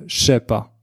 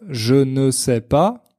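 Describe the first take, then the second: First: The phrase is squeezed together even more. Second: Every word is said in full, including ne. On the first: Only some people shorten it this far. "Certains Français disent même" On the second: This is the official form. "au lieu de dire"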